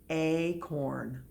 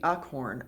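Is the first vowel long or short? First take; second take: long; short. First: The first vowel is long, like 'ay'. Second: The first vowel is short, like 'uck'. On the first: The speaker calls it right. "the A is long" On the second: The speaker calls it wrong. "uckhorn doesn't sound right either"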